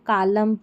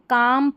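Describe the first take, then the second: First: The L sound is pronounced. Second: The L sound is silent. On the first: The speaker calls it wrong. "करके नहीं पढ़ेंगे" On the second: The speaker calls it right. "पढ़ेंगे"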